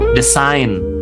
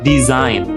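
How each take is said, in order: First: The middle consonant is an s sound. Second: The middle consonant is a z sound. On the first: The speaker calls it wrong. "bukan design. Jadi uh, jangan sampai S ya" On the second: The speaker calls it right. "Harus Z"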